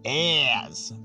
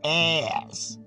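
First: It is said in a North American accent. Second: The same.

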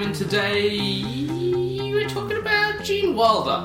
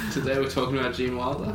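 First: It is said in a cheerful, upbeat tone. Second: It is said in a subdued, somber tone.

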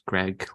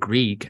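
First: The name rhymes with egg. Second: The name does not rhyme with egg. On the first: The speaker calls it right. "no, it's Greig, like the baker's" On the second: The speaker calls it wrong. "they're like, is it Greig?"

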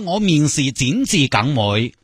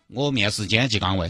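First: It is spoken in Cantonese. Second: It is spoken in Sichuanese. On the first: The speaker calls it wrong. "不要说广东话了" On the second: The speaker calls it right. "说你的母语好不好？ 都是四川"

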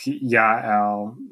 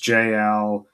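First: The name begins with a Y sound. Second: The name begins with a J sound. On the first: "but I like Yael" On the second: "I've heard people render her name as JL"

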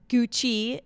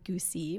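First: The middle consonant is a 'ch' sound. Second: The middle consonant is an 's' sound.

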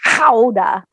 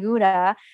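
First: The word begins with an h-like sound. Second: The word begins with a hard g sound. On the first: This is the original native pronunciation. The speaker calls it right. "the real pronunciation is Howda" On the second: This is how most people say it. The speaker calls it wrong. "when they say Gouda"

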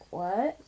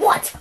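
First: It is said flatly, with little energy. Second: It is said angrily, with strong energy. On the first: The feeling inside does not come through. "It just sounds like" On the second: The speaker is openly angry at someone. "It doesn't sound and, like, what? I'm so angry with you"

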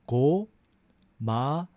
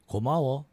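First: It is said slowly. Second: It is said fast.

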